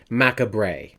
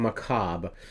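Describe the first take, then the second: First: The word is sounded out as it is spelled. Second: The word is said with its usual pronunciation. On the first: The speaker calls it wrong. "if you look at the word, it's macabre" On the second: The speaker calls it right. "a nineteen fifty-eight film called Macabre"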